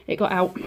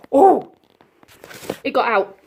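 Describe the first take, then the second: First: Said in the usual way. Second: Loud alarmed cry; raised voice. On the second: Real, not acted. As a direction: call it out in alarm. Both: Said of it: "Sorry about the very loud scream".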